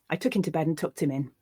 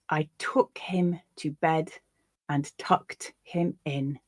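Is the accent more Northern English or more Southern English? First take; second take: Northern English; Southern English. First: It is read in a more Northern English accent. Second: It is read in a less Northern English accent.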